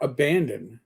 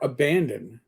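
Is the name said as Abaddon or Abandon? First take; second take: Abandon; Abandon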